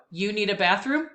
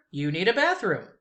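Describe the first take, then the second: First: "bathroom" rising as a question; question rise. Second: "bathroom" falling as a plain statement. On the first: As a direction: lift "bathroom" at the very end. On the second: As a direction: let "bathroom" drop down flat as a fact. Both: Shown as a demonstration. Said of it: "Here we go".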